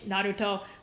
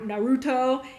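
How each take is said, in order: First: The name has a Japanese pronunciation. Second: The name has an American pronunciation. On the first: The speaker calls it right. "It's Naruto. But when I say it like that, ... the Japanese version" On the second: The speaker calls it wrong. "most people are Na- Naruto"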